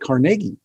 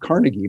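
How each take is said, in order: First: The name is said the Scottish way. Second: The name is said the common, non-Scottish way. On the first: The speaker calls it right. "but Carnegie, because he was from Scotland" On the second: The speaker calls it wrong. "not Carnegie"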